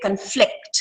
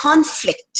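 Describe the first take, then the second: First: "conflict" as cun-FLICT, weak first vowel; stress on second syllable. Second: "conflict" as CON-flict, first syllable higher; stress on first syllable. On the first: Teacher showing the verb, "conflict" stressed on FLICT. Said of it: "ಎರಡನೇ syllable ನ stress". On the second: Teacher showing the noun, "conflict" stressed on CON. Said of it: "nouns stress on the first syllable". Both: Shown as a demonstration.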